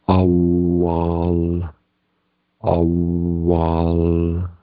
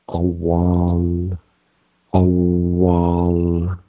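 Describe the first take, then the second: The two takes are said the same way.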